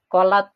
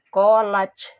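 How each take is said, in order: First: The final t stops with a light puff of air. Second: The final consonant turns into a ch sound. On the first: The speaker calls it right. "harusnya kolat" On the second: The speaker calls it wrong. "dibacanya ke C collage salah"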